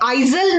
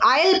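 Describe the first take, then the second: First: The s in the middle is pronounced. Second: The s in the middle is silent. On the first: The speaker calls it wrong. "हम इसे आइजल नहीं पढ़ेंगे" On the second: The speaker calls it right. "हम इसे आयल पढ़ेंगे"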